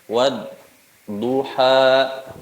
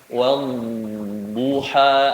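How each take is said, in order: First: It has a short break in the middle. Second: It flows smoothly with no break inside. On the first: The speaker calls it wrong. "seperti saktah ya. Berhenti sejenak tanpa ngambil nafas" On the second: The speaker calls it right. "ada zamannya"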